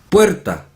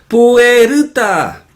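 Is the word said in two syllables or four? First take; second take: two; four. First: The word is said in two syllables. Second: The word is broken into four syllables. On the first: The speaker calls it right. "puerta son dos sílabas" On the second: The speaker calls it wrong. "los asiáticos la pronuncian como cuatro sílabas"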